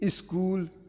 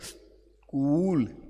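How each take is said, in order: First: An extra i vowel comes before the s. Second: The word starts directly with the s sound. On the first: The speaker calls it wrong. "हम आधा सा जहां आता वहां ई लगा देते हैं" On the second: The speaker calls it right. "सा पहले बोलने फिर बोले उच्चारण"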